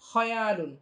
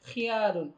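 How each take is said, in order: First: The first vowel sounds like 'a'. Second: The first vowel sounds like 'i'. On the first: The speaker calls it right. "সঠিক উচ্চারণটা হচ্ছে খয়ালুন" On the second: The speaker calls it wrong. "এই উচ্চারণটা সঠিক না"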